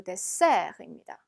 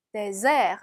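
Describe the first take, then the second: First: Dessert with a hissing s, "dé-sèr"; sharp s sound. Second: Dessert mispronounced with a z, "dé-zèr"; wrong z sound. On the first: Teacher corrects to the sweet course, dessert with a sharp s. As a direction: say dessert with a clear double-s in the middle. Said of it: "스 발음을 내주셔야 돼요". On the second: Teacher shows the mistake to avoid, dessert with a z. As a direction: say dessert with a buzzing z in the middle. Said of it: "아니고 dessert입니다". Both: Shown as a demonstration.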